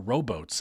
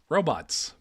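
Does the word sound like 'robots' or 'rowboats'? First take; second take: rowboats; robots. First: The word sounds like 'rowboats'. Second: The word sounds like ordinary 'robots'.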